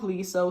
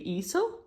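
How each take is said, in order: First: The name begins with an L sound. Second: The name begins with a vowel, no L. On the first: The speaker calls it wrong. "first someone said it was with the L" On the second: The speaker calls it right. "Korean pronunciation is without the L"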